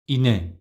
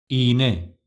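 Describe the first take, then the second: First: The first vowel is short. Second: The first vowel is lengthened. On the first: The speaker calls it wrong. "without yumuşak G" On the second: The speaker calls it right. "Right pronunciation with yumuşak G"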